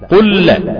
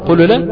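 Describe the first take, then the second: First: The two L sounds merge into one long L. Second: The first L is released with a bounce before the second. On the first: The speaker calls it right. "استقام المعنى واستقام اللفظ بهذه الطريقة" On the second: The speaker calls it wrong. "هتقلقل الحرف، هتقول قل لا، هتقولها زايع"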